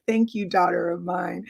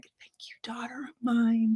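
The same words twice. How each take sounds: First: Said in the usual way. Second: Breathless whisper of thanks. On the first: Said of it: "She's like". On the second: Retold or imitated. Mother to her daughter, overcome, in a whisper. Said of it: "she's just like".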